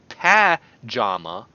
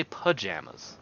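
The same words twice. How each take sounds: First: "pajama" as flat-A PA, then JAH; mixed wrong vowels. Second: "pajamas" as puh-JAM-as; own pronunciation. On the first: Rejecting a pronunciation he never uses, "pajama" as PA-JAH-ma. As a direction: say "pajama" slowly, cat's vowel first, then ah. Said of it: "I don't say pajama". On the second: Settling on how he says it, "pajamas" as puh-JAM-as. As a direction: say "pajamas" with a weak uh, then JAM. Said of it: "I say pajamas". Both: Shown as a demonstration.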